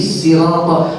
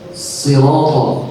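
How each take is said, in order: First: The word begins with a plain, light s. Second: The word begins with an emphatic, heavy s. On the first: This follows another accepted reading tradition. "dibaca dengan sin" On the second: This follows one accepted reading tradition. "dengan sad yang kita baca sirato"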